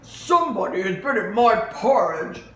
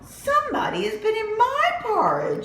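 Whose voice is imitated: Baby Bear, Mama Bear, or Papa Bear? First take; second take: Papa Bear; Mama Bear. First: It is said in Papa Bear's voice. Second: It is said in Mama Bear's voice.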